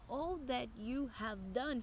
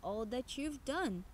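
First: You have is said as two full words. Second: You have is contracted into one syllable. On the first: "all that you have done fica" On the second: "Aqui temos uma contraction"

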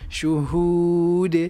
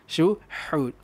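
First: The h sound is light and just clear. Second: The h sound is pressed hard and forceful. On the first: The speaker calls it right. "Janji anda jelaskan bunyinya" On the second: The speaker calls it wrong. "yang salahnya adalah kalau kita syuhud. Anda tekan tu"

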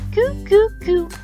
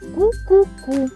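First: The k sound is soft and palatalized. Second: The k sound is hard, not palatalized. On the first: "А Кіра відповідає їй м'яко" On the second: "Катруся промовляє склади зі звуком «к» твердо"

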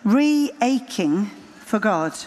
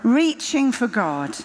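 First: The word is split into re plus aching. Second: The word is said as ordinary reaching.

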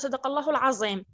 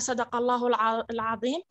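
First: The last word has a 'z' sound instead. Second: The last word has an emphatic 'dh' sound. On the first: This is the local dialect form. "في اللهجة التواتية يقول" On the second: This is the standard Arabic form. "إذا قلنا"

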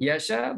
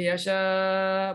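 First: The long vowel is held for two counts. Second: The long vowel is held for four counts. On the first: "boleh dua rakaat" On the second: "boleh empat"

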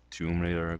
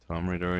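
First: The name is pronounced in a careful, clear way. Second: The name is pronounced in a lazy, careless way. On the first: The speaker calls it right. "instead of Tomb Raider" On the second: The speaker calls it wrong. "in the past I say Tomb Raider"

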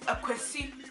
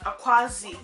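First: The last syllable begins with an s sound. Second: The last syllable begins with a z sound. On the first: The speaker calls it right. "another popular one is Akwesi" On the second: The speaker calls it wrong. "not Akwazi. You don't see no Z there"

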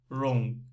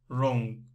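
Both takes have the same delivery.

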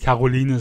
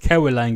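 First: The name is pronounced the German way. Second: The name is pronounced the English way. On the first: "da er jetzt auf Deutsch ist, muss ich Caroline sagen" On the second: "in Englisch wäre es jetzt Caroline gewesen"

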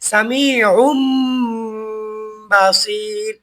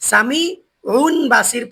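First: An m sound is heard before the b. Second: An n sound is heard before the b. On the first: The speaker calls it right. "এখানে পড়তে হবে" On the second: The speaker calls it wrong. "পড়া যাবে না"

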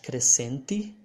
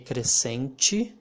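First: The last syllable starts with a plain t sound. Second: The last syllable starts with a ch sound. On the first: "You can pronounce like crescente" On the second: "it's more common when you hear people pronouncing it like ch"

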